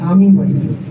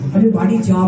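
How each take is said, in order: First: The stress falls on the word আমি. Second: The stress falls on the word যাব. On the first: I, not someone else, will go home. "আমি মনে হয় মনে হয় সে নয়" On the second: I will go, rather than come. "আপনি যাবোটা, যাবাটা বলছেন।"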